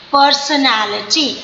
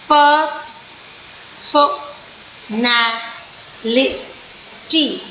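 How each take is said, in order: First: Said in the usual way. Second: "personality" stretched very slowly into five syllables; slow teaching demo of "personality". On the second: Shown as a demonstration. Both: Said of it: "it is five syllable word".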